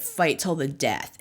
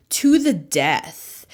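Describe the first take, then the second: First: "Fight till the death" dropped lower and softer, quoted under the breath; quoted phrase. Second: To the death drawn out slow and low, each word weighted; dramatic emphasis. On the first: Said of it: "a phrase that's like". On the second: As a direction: lean hard on "to the death", dragging it slowly like a battle vow. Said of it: "I don't know why I'm saying it like that". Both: Shown as a demonstration.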